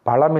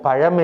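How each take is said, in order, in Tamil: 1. நடுவில் உள்ள மெய்யெழுத்து சாதாரண l ஒலி. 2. நடுவில் உள்ள மெய்யெழுத்து retroflex zh ஒலி. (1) "பழம் என்று சொல்லக்கூடாது" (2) "பழம் என்று தான் சொல்ல வேண்டும், இந்த ழா போட்டுத்தான்"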